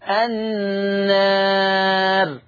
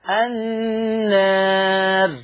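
No difference in how they are said.

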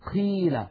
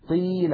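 First: The q is released with a puff of air. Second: The q is voiced with no air puff. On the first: The speaker calls it wrong. "ولا نقول قيل قي، لا نجعل هواء يتدفق مع صوت القاف" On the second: The speaker calls it right. "لا نجعل هواء يتدفق مع صوت القاف"

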